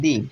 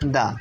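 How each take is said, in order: First: The word ends in a long 'ee' vowel. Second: The word ends in a short 'uh' vowel. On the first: The next word begins with a vowel. "দি এর পরবর্তী word যদি vowel দিয়ে শুরু হয়" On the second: The next word begins with a consonant. "শব্দটি যদি consonant দিয়ে শুরু হয়"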